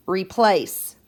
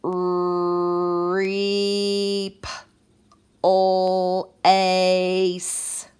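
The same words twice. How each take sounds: First: Said in the usual way. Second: "Reep, ol, ace." each chunk held long on a level note; stretched-out sounds. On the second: Shown as a demonstration. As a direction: drag out every sound of "Reep, ol, ace." with gaps. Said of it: "break it apart so we can hear all the sounds".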